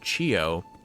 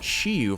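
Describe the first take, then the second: First: The name ends with an 'oh' sound. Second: The name ends with an 'oo' sound. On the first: The speaker calls it right. "I think it's actually pronounced Chiyo" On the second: The speaker calls it wrong. "I've been pronouncing his name Chiyu for so long"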